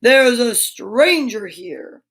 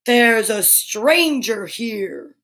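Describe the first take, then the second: First: Slow, weighty beast voice, a different timbre; slow beast voice for a child's bedtime story; booming beast voice. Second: Slow, drawn-out beast announcing a stranger; mildly booming beast, very slow. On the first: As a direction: loom over the room with each word. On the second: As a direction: let the monster's voice roll out slowly. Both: Acted. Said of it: "That's my booming voice".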